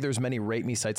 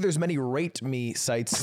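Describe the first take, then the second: First: The T in rate is soft and blurred. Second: The T in rate is crisp and released. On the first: "You just say the word rate too fat" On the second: "Could you just say the T more like enunciated?"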